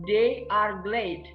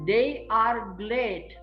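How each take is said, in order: No difference in how they are said.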